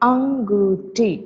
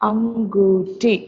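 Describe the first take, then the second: The two takes are said the same way.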